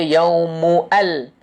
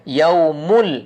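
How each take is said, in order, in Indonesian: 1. Hamzah terpisah tetap dibaca sebelum 'al'. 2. Kedua kata disambung tanpa hamzah. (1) "kita tak baca yaumu al" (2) "Yaumul dia hilang"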